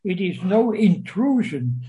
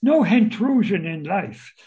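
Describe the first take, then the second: First: Said in the usual way. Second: "intrusion" said with an H in front, as "hintrusion"; added Cockney H. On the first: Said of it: "add an H where it doesn't belong". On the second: Shown as a demonstration. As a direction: put a Cockney overcorrected H on "intrusion". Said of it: "Now, why intrusion? Because Cockneys".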